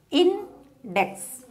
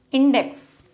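First: "index" split as in, pause, dex; syllable by syllable. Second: Said in the usual way. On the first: Shown as a demonstration. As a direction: say "index" in two beats, first one high. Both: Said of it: "two syllable".

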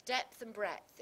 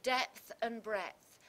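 First: Depth and breadth said firmly; repeated demo. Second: Slow, loud, each word leaned on; slow stressed demo. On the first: Teacher repeating the phrase to show assonance, firm. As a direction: hit the vowels again. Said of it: "that vowel sound of the eh sound". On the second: Teacher stressing the vowels for students, slow and loud. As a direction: draw out depth and breadth. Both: Shown as a demonstration.

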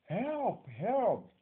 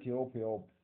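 First: High, loud cry for help; shouted plea. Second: Said in the usual way. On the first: Shown as a demonstration. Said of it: "someone will shout". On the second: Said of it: "telling someone gently".

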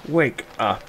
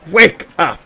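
First: Softer, half-given-up wake-up call; subdued call. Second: High, loud wake-up call. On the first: Player tries sleepers once more, subdued call. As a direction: try softly to rouse someone. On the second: Player calls to people asleep, calling out. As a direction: call out to rouse sleepers. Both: Pretend.

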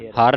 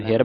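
First: ਹਰ with an "a" vowel, "har". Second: ਹਿਰ with a short front vowel, "hir"; sihari vowel. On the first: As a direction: say ਹਰ as "har", without the sihari. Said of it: "ਹਰ ਨਹੀਂ ਬੋਲਣਾ". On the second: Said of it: "ਇਹਨੂੰ ਹਿਰ ਬੋਲਣਾ". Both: Shown as a demonstration.

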